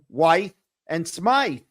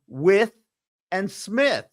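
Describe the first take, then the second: First: The vowels are long, rhyming with 'scythe'. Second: The vowels are short, rhyming with 'with'. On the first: It is how an outsider reads the spelling. The speaker calls it wrong. "I pronounced them Wythe and Smythe" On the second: It is how the locals say the names. The speaker calls it right. "they pronounced them With and Smith"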